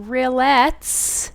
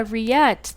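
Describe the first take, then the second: First: "rillettes" with a clear L and a hissed S at the end; mispronounced rillettes. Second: "rillette" as ree-YET, with no L and no S sound; French pronunciation. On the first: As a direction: say "rillettes" the wrong way, every letter sounded out. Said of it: "that is not how you say the word". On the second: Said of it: "no L sound, no S sound". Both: Retold or imitated.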